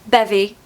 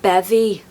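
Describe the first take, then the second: First: It is said in a neutral accent. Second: It is said in a Scouse accent.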